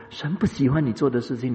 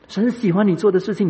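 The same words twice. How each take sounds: First: Said in the usual way. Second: 做 punched high and loud, much louder and higher; preacher driving home 神喜欢你做的事情, stress on 做; emphatic contrast. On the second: Shown as a demonstration. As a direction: hit 喜欢 and 做 hard against the line before.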